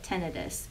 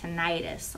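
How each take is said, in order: First: It is said with clipped, reduced vowels. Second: It is said with full Texas vowels.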